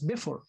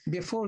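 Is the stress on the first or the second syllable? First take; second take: first; second. First: The stress falls on the first syllable. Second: The stress falls on the second syllable. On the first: The speaker calls it wrong. "If you put stress on the first syllable, you will pronounce it as before, not English" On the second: The speaker calls it right. "So you have to pronounce it as before. Before, then it's iambic"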